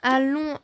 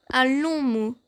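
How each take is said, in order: First: Drawn-out "Un long" with weight on long; stressing long. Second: "Un long mot" said louder with weight on "long"; emphatic repeat. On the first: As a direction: lean on the word "long", stretched. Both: Shown as a demonstration. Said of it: "Maîtriser est un long mot".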